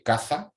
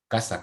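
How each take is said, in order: First: The middle consonant is an interdental th sound. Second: The middle consonant is a hissing s sound. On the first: "el cefeo, que es pronunciar ese único fonema de forma ciseante como eh, interdental" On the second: "el seseo, que es pronunciar ese único fonema de forma siseante, como ese"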